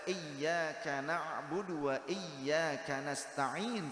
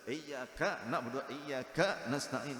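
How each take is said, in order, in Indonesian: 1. Kata-katanya dibaca dengan lancar, tanpa terputus. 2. Kata-katanya dibaca dengan terputus-putus. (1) "Membaca iyyaka na'budu wa iyyaka nasta'in seperti itu. Tidaklah dihentak-hentak" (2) "gimana ini bacanya kok begitu?"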